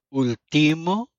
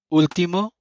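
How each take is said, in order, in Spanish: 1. El acento está en la sílaba del medio. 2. El acento está en la primera sílaba.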